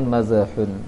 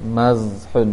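First: The consonant bounces with an added vowel sound. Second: The consonant is held still without a bounce. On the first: The speaker calls it wrong. "jangan mazhun" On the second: The speaker calls it right. "itu jangan dipantulkan juga"

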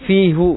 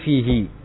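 First: The final syllable ends with an 'oo' vowel. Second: The final syllable ends with an 'ee' vowel. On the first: The speaker calls it wrong. "itu bukan fihu" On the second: The speaker calls it right. "tapi fihi"

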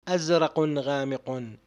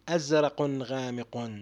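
No difference in how they are said.

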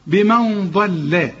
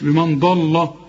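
First: The l sound is light and thin. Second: The l sound is heavy and full. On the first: The speaker calls it right. "اللام مرققة. بمن ضل" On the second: The speaker calls it wrong. "مش بمن ضل"

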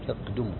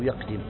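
First: The vowel after the d is u. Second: The vowel after the d is i. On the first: "بالضم" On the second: "الكسر"

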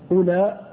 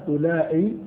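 First: The word is short and ends in a vowel. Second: The word is long and ends in a hamza. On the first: "وإذا كتبتها مقصورة" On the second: "إذا كتبتها ممدودة"

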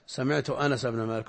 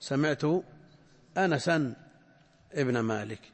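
First: Anas is said without a final n sound. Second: Anas is said with a final n sound. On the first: "هذه اللغة الربعية عندهم" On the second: This is the standard original form. "والأصل أن تقول"

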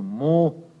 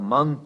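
First: The word ends in a nasalized vowel, no n. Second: The word ends with a clear n sound.

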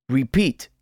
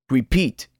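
No difference in how they are said.

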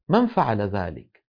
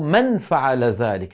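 First: The n is hidden, gliding straight into the f. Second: The n is clearly sounded with the tongue tip. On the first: This is the easy, natural way people speak. The speaker calls it right. "ينتقل من الميم إلى مخرج الفاء مباشرة" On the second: This is not how people naturally speak. The speaker calls it wrong. "ولا يقول من فعل ذلك، لا يقرع بطرف لسانه مخرج النون"

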